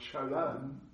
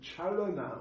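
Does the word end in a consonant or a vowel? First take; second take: consonant; vowel. First: The word ends on the consonant n. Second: The word ends with a final vowel sound.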